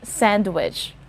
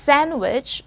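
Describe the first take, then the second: First: The d sound is clearly pronounced. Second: The d sound is left out. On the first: The speaker calls it wrong. "and not" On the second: The speaker calls it right. "silent D"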